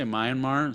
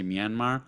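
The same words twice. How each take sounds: First: Myanmar said "MY-an-mar"; first syllable of Myanmar rhymes with "eye"; alternative pronunciation. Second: Myanmar said "mee-AN-mar"; first syllable of Myanmar rhymes with "see"; alternative pronunciation. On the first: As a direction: open Myanmar with the word "my". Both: Shown as a demonstration. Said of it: "Some people say Myanmar".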